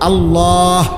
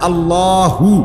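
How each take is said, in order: First: It ends with a breathed-out h sound. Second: It ends with a voiced hu syllable. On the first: "হুটারে শ্বাস ফেলাইলে হলো আল্লাহ" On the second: "যদি শ্বাসে না ফেলান তাহলে তো হু কইতে হবে"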